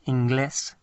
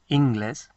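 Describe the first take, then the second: First: The stress is on the last syllable. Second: The stress is on the first syllable. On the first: It means English. "to emphasize the last part of the word" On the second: It means groins. "the word without the accent means something quite different"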